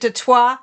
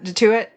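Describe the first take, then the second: First: The name ends with an 'oy' sound. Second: The name ends with an 'oot' sound. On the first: The speaker calls it wrong. "I keep pronouncing it de toi because like French" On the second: The speaker calls it right. "that's Afrikaans, so I think it's more like de toot"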